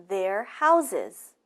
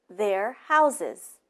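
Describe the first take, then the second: No difference in how they are said.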